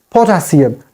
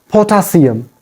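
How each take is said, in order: No difference in how they are said.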